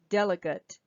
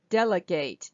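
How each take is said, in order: First: The last vowel is a reduced schwa. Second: The last vowel is a full vowel. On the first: It is the noun, meaning a representative. "if it was the noun form, a person is a delegate. In that case, the this A would also be a schwa" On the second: It is the verb, meaning to hand over a task. "delegate is actually the verb form"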